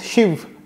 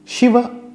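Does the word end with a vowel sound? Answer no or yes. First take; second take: no; yes. First: The final vowel is dropped. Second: The final vowel is clearly pronounced. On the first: This is how North Indians say it. "Shiv in North India" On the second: This is how South Indians say it. "Shiva in South India"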